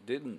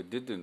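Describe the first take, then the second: First: "didn't" with the D held straight into the N, no release; the relaxed native "didn't". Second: "didn't" with a clear separate D before the N; careful didn't. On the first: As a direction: keep the tongue up from D to N in "didn't". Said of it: "ネイティブスピーカーの人たちはdidn'tっていうふうに発音する". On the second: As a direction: release the D fully, then say N and T. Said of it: "多くの人はこれdidn'tって言ってる". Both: Shown as a demonstration.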